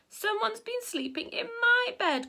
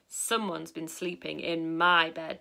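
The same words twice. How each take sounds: First: It is said in a small, high, squeaky voice. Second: It is said in a big, deep, booming voice. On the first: "in a squeaky little voice" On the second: "in a big booming voice"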